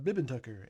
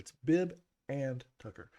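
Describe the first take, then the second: First: The 'and' is reduced, sounding like 'Bibbin'. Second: The 'and' is fully and clearly pronounced. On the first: "if I pronounce it the way I normally do, it comes out"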